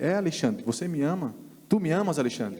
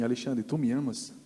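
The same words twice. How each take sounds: First: Insisting question. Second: Said in the usual way. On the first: Retold or imitated. Preacher presses Alexandre in church, insistent and higher. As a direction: push the question home with rising insistence. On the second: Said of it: "ele olhou pra mim e falou assim".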